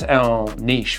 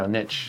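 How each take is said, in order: First: Niche is said in a non-American accent. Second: Niche is said in an American accent.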